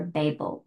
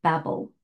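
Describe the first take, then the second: First: Babel with a long A, BAY-bul; Babel, first syllable rhyming with "day"; alternative pronunciation. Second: Said in the usual way. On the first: Shown as a demonstration. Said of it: "as some people say it".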